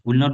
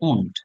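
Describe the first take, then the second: First: It is said as two full separate words. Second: It is said as one short contracted word. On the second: "উইল নট কে আমরা সংক্ষেপে বলি ওন্ট"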